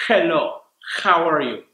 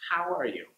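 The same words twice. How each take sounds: First: "Hello, how are you?" with a rough, scraping H from the throat, louder; harsh throaty H. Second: "How are you?" with a gentle airy H, much quieter; soft relaxed H. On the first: Teacher demonstrates the overdone Spanish-speaker H, loud and harsh. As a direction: attack the H hard from the back of the throat. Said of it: "That means you're breathing out, like". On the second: Teacher models the toned-down H at a three, soft and relaxed. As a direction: breathe the H out lightly, jaw loose. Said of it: "bring it down to about a three". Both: Shown as a demonstration.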